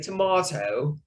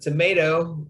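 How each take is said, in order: First: It is said in a British accent. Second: It is said in an American accent.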